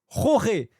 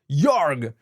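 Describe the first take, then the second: First: The name is said with Spanish sounds. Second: The name is said without Spanish sounds. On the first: The speaker calls it right. "Ça se dit Roré ... c'était de l'espagnol" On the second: The speaker calls it wrong. "c'est peut-être Jorg"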